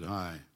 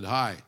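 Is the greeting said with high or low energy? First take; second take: low; high. First: It is said with low energy. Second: It is said with high energy.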